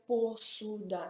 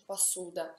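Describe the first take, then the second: First: The first vowel sounds like a full 'o'. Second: The first vowel sounds like 'a'. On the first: This is how the word is written. "si scrive posuda" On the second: This is how the word is actually said. "si pronuncia passuda"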